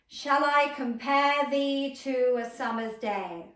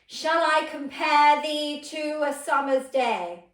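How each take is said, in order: First: The voice is projected to a nearer point. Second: The voice is projected further, more strongly. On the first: "if I pick this angle over here, I'm going to focus my attention on that and direct the sound to that" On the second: "Now a little bit further away"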